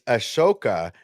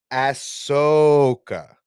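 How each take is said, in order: First: Ashoka as uh-SHO-kuh, sh in the middle; Ashoka, light first vowel, stressed SHO. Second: Ahsoka as "ASS-SOOO-kah", loud and very drawn out; slow, high, exaggerated ASS-SO-ka for Ahsoka; Ahsoka mispronounced. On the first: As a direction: correct them with a crisp uh-SHO-kuh for Ashoka. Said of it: "not Ahsoka". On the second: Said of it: "It's Ashoka, not". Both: Shown as a demonstration.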